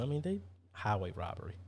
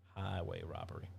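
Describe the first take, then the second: First: Said in the usual way. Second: Softer, lower muttered echo; quiet repeat. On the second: Real, not acted. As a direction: repeat it under your breath.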